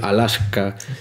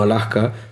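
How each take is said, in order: First: The s before the k is fully pronounced. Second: The s before the k is aspirated. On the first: "me esforcé por decir Alaska" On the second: "y no Alaska"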